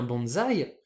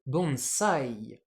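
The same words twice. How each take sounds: First: BONSAÏ said "bon-zaï"; French bonsaï. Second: BONSAI slow, with s not z; Japanese bonsai. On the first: Teacher recalling the French habit, BONSAÏ with a z. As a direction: put a z in BONSAÏ. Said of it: "ce qu'on appelle un bonsaï". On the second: Teacher warning about the Japanese word, BONSAI slowly with an s. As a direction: draw out BONSAI, keeping the s sharp. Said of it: "attention, le mot japonais". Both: Shown as a demonstration.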